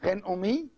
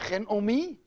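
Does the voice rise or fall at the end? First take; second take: rise; rise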